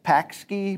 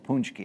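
First: The word is said with a 'pak' sound. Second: The word is said with a 'punch' sound. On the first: This is how the spelling looks. The speaker calls it wrong. "It looks like pakski" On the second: This is how native speakers say it. The speaker calls it right. "the true Polish heads know it's punchki"

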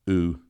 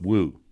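First: The word starts straight on the vowel, no W. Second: The word starts with a clear W sound. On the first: The speaker calls it wrong. "Or just ooh" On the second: The speaker calls it right. "You still got to have the W sound"

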